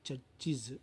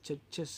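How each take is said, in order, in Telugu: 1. ఈ చివరి భాగం 'iz' శబ్దంతో పలకబడుతుంది. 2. ఈ చివరి భాగం 'es' శబ్దంతో పలకబడుతుంది. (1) "ఇజ్ ఇజ్ ఇజ్ అనే సౌండ్ పలకాలి" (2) "చర్చెస్ కాదు"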